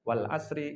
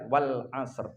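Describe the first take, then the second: First: The word ends with an added vowel after r. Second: The word ends sharply on a bare r. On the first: The speaker calls it wrong. "Saya sering mendengar surat ini dibaca dengan tidak tepat" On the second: The speaker calls it right. "Yang paling tepat adalah"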